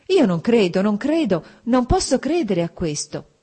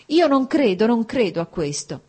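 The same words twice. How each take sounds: First: Louder, higher cry of denial; exclaiming in disbelief. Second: Loud, much higher outburst on io non credo; exclaiming in disbelief. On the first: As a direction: refuse to believe it, out loud. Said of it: "esclamò Dolly con un gesto energico". (esclamazione incredula, più forte e acuta) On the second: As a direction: burst out in denial. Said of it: "esclamò Dolly". (esclamazione incredula, molto più acuta e forte) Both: A narrator's reading.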